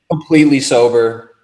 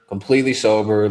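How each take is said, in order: First: COMPLETELY sober said louder and higher, insisting; emphatic insistence. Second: Said in the usual way. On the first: Real, not acted. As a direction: hit "Completely" hard to insist you were sober. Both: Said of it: "you're sober during this?".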